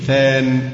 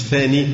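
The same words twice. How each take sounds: First: ثان said short, ending on n with no final i; correct pronunciation. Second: ثاني said with a long final i; mock the mistaken ثاني; wrong pronunciation. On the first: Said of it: "يبقى نقول مفعول به ثان، مش ثاني". (ثان بدون ياء في آخرها) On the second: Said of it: "مش ثاني". (نطق خاطئ: ثاني بياء ممدودة) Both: Shown as a demonstration.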